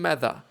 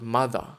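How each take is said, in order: First: The first vowel sounds like in 'math'. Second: The first vowel sounds like in 'mother'. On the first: The speaker calls it right. "I think it's Mather, but I don't know" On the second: The speaker calls it wrong. "I think it's not Mother"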